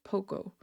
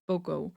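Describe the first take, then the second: First: The word begins with a P-like sound. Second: The word begins with a B sound. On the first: The speaker calls it right. "it sounds closer to a P. So it's pogo" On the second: The speaker calls it wrong. "not bogo"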